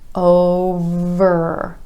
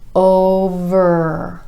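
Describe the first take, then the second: Both takes have the same delivery.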